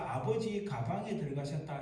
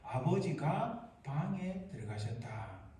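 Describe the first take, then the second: First: The break comes before the syllable ga. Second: The break comes after the syllable ga. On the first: Father went into a bag. The speaker calls it wrong. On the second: Father went into the room. The speaker calls it right.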